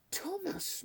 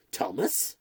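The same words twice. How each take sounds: First: Soft, high-pitched murmur of the name; muttered. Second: Startled question. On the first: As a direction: mutter it softly to yourself in dismay. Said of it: "muttered Rundle". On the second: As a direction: lower voice with rising, questioning end. Cook questions the shocking news. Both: A narrator's reading.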